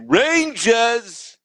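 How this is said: It is said in a strong New York accent. "talk in that accent. Like ... they say Rangers"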